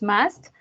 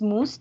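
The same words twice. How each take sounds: First: The vowel sounds like an English 'uh'. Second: The vowel sounds like a Spanish u. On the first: The speaker calls it right. "es must" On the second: The speaker calls it wrong. "no es must"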